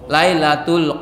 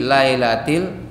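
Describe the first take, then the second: First: The word ends with an 'ul' sound. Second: The word ends with an 'il' sound. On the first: The speaker calls it wrong. "dia keliru, dia ke lailatul" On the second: The speaker calls it right. "Karena ada harfu jar"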